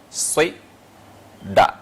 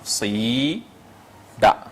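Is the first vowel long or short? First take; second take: short; long. First: The first vowel is short. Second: The first vowel is long. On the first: "avec le kasra" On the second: "tirer maintenant la première lettre qui est le si"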